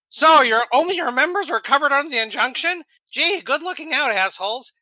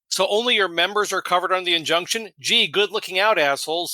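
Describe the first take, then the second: First: It is read in a sarcastic tone. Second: It is read in a plain tone.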